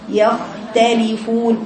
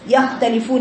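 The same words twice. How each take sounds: First: The kh sound flows on and is held. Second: The kh sound is cut off abruptly. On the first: The speaker calls it right. "اديله زمن للخاء الساكنه دي" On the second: The speaker calls it wrong. "ما قطعش الصوت، ما قلش يختلفون"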